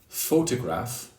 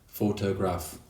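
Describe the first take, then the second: First: One syllable is clearly stressed over the others. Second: All syllables get the same equal stress. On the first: The speaker calls it right. "instead of saying photograph" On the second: The speaker calls it wrong. "put equal stress on all syllables"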